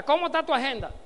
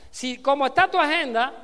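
First: Said in the usual way. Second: "está" punched loud and the end of "agenda" held long; louder repeat. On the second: Real, not acted. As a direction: drive home "está" with a louder push.

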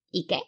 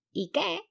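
First: Said in the usual way. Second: Very high squeaked call; grito. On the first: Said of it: "dijo otra". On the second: A narrator's reading. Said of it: "la primera gritó desde arriba". (grito agudísimo desde arriba)

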